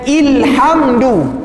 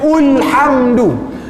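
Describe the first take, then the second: First: The word begins with an i vowel. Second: The word begins with a u vowel.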